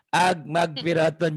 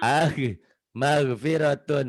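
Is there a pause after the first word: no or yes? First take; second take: no; yes. First: The two words run together without a pause. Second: A clear pause comes after the first word. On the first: The speaker calls it wrong. "jadi nggak ada jeda gitu loh" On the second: The speaker calls it right. "Ag jeda dulu"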